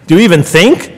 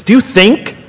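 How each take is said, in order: First: "even" punched, exasperated rise at the end; chiding quizmaster, "even" stressed. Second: You lifted higher; quizzing tone, "you" pitched up; stress on you. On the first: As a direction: Do you even think, leaning hard on "even". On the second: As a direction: Do you think with the weight on "you". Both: Acted.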